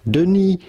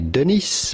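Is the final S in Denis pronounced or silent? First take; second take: silent; pronounced. First: The final S is silent. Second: The final S is pronounced. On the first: The speaker calls it right. "Do not pronounce the S to Denis. It is silent in French" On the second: The speaker calls it wrong. "Do not say Denis"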